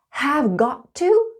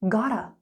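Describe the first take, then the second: First: All three words are said fully. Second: The words are reduced to two syllables. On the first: "Have got to becomes" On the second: "becomes gotta"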